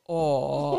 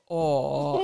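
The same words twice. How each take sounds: First: It is said in a deep, low voice. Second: The same.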